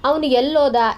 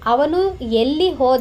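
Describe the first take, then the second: First: The words 'elli' and 'hoda' merge into 'ellOda'. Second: The words 'elli' and 'hoda' are said separately. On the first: This is how people actually speak. "ಈ ಥರ ನಾವು ಮಾತಾಡ್ತೀವಿ" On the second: This is the standard written form. "ಅಂತ ಇರೋದು"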